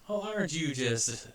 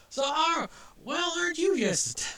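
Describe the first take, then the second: First: Said in the usual way. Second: Reach for a folksy rural Southern voice and fumble; Southern accent. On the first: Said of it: "I can't do it". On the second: Acted. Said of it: "I have this accent in my brain, and I can't do it".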